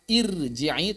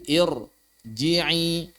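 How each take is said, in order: First: First "irji'i" with a light r straight after a clear "i"; wrongly thin r. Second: "irji'i" with a heavy, dark r, slowly; correct thick r. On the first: Teacher shows the reading to avoid, thin r. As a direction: keep the r of "irji'i" thin, as a mistake. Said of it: "maka dia bukan irji'i". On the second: Teacher corrects it to the thick reading, heavy r. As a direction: darken the r in "irji'i" and stretch it out. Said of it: "tapi irji'i". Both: Shown as a demonstration.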